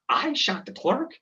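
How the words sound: It is an incredulous question, rising at the end.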